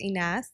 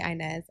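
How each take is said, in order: First: The name is said with an Arabic pronunciation. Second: The name is said with an English pronunciation. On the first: This is how family and foreign people say it. "In Arabic, it's Inas, and that's the way my mom says it" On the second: This is how everyone else says it. "when it comes to everybody else, I say Inez"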